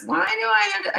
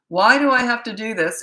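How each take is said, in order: First: It is said in a whining tone. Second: It is said in a calm, normal tone.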